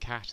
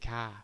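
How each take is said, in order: First: The final t sound is clearly pronounced. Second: The final t sound is left off. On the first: "instead of saying cat" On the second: "they just drop off the end"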